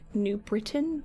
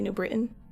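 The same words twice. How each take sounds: First: The t in Britain is clearly pronounced. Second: The t in Britain is dropped, Connecticut style.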